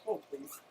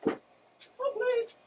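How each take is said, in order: First: Said in the usual way. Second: Squeaky plea. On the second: Shown as a demonstration.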